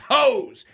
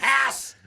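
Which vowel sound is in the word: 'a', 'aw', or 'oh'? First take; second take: oh; a. First: The vowel is a long 'oh' sound. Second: The vowel is a flat 'a' sound. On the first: The speaker calls it right. "it's hose" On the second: The speaker calls it wrong. "It's not hass"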